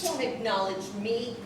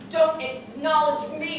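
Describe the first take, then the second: First: Said in the usual way. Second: Louder and slower, each word hammered; slow emphatic shout. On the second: Acted. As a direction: spit it back at him, slow and loud. Repeats line, second time shouted.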